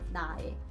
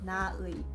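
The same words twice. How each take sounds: First: The final vowel is pronounced as 'e'. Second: The final vowel is pronounced as 'ui'. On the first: "could be pronounced like 나의" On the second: "when I say my in Korean, it's 나의"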